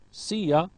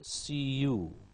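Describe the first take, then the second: First: The second word is a reduced ya. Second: The second word is a full you. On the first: "Ya is you"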